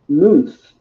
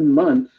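First: The vowel is long, as in 'moon'. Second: The vowel is short, as in 'mum'. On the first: This is the old pronunciation. "a long time ago, it used to be pronounced moonth" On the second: This is the modern pronunciation. "The word month is related to the word moon"

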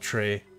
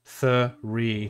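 First: The word begins with a hard 't' sound. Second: The word begins with a soft 'th' sound. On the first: The speaker calls it wrong. "not tree" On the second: The speaker calls it right. "Three, not tree"

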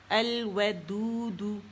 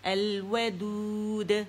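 First: The word ends with a short u vowel. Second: The word ends on a bounced, stopped d sound. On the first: "تو پیش کے ساتھ پڑھ رہے ہیں" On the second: "اس پہ دود قلقلہ آ جائے گا ساکن"

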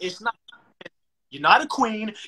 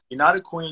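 First: It is said forcefully and aggressively. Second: It is said calmly and plainly. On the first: The point gets across. The speaker calls it right. "it doesn't sound the same" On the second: The point does not get across. The speaker calls it wrong. "imagine I just sat there and said"

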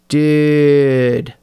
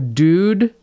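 First: The vowel is stretched out long. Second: The vowel is short and plain.

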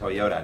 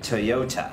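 First: It is said with an American accent. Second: It is said with a British accent. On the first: "ถ้าอเมริกัน" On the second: "ถ้าอังกฤษ"

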